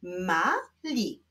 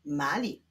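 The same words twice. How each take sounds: First: "Mali" as two detached syllables; separate syllables. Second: Said in the usual way. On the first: Shown as a demonstration. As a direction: leave a clear gap inside "Mali". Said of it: "łączymy sylabę żółtą z sylabą niebieską". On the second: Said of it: "musimy połączyć ze sobą sylaby".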